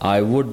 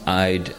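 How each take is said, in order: First: Both words are said in full. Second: The words are contracted into one syllable. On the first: "I would becomes I'd" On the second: "I apostrophe D"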